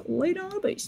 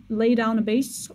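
First: High voice demo. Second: Said in the usual way. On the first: Shown as a demonstration. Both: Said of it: "So if I have a high voice".

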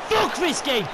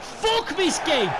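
First: High, loud raging shout; furious shout. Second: High, loud, slow, drawn-out raging shout; slow furious shout. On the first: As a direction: spit it out in fury. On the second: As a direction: stretch every word in fury. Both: Real, not acted. Raging after late equaliser.

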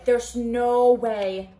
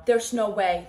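First: NO stretched long and loud in "no way"; stress on NO. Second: Said in the usual way. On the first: Real, not acted. Reader refusing the twist, long stressed NO. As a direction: draw out NO slowly and loudly.

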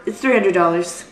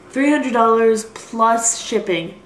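First: Said in the usual way. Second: "Three hundred dollars plus shipping" drawn out slowly, every word weighted; dismayed, deliberate price repeat; slow emphatic price. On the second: Real, not acted. Stressing the painful price.

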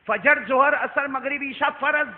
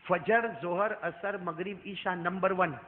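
First: Each prayer name called out loud and higher; loud, high preaching list. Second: Said in the usual way. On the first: Shown as a demonstration. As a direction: hammer out every name to the crowd. Same list repeated, now shouted. (ہر نماز کا نام بلند اور اونچی آواز میں پکارنا)

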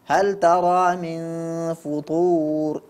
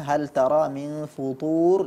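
First: HAL TARA MIN FUTUR slowly chanted, light T in futur. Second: HAL TARA MIN FUTUR with an emphatic T in futur; heavy ta. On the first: Quran teacher imitating the reader's mistake, light ta. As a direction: draw out FUTUR with a thin T. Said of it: "kedengarannya terganti menjadi huruf ta". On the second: Quran teacher giving the correct reading, heavy ta. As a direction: thicken the T of FUTUR into a heavy sound. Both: Shown as a demonstration.

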